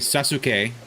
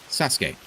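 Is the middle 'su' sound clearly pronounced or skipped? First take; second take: clear; skipped. First: The middle 'su' is fully pronounced. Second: The middle 'su' is run over, nearly silent. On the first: The speaker calls it wrong. "You don't say Sasuke" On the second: The speaker calls it right. "you run over the Su"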